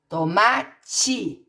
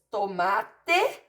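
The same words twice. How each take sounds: First: The word ends with an I sound. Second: The word ends with an E sound. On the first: This is how people say it in everyday speech. "Na hora de falar, colocamos o I no lugar do E" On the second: This is how the word is written. "palavras escritas com E em posição final"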